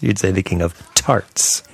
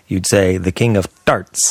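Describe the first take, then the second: First: The T in tarts has a puff of air. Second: The T in tarts has no puff of air. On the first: The speaker calls it right. "no one ever says the king of tarts. You'd say" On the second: The speaker calls it wrong. "If you said the word tart like you said start"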